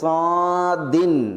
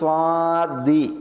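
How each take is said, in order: First: It ends with a short i plus n. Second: It ends with a short i vowel. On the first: "സ്വാദിൻ തൻവീനോടുകൂടി" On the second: "അല്ലെങ്കിൽ സ്വാദി"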